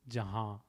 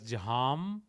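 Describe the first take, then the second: First: The word ends with a nasalized vowel. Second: The word ends with a full m sound. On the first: The speaker calls it right. "the sound H A nasal" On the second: The speaker calls it wrong. "we needn't pronounce it as Jaham"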